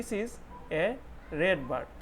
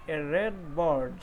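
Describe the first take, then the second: First: Said in the usual way. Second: "red bird" read very slowly and clearly; slow model reading. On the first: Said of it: "ठीक है जी". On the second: Shown as a demonstration. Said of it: "पहला जो sentence है".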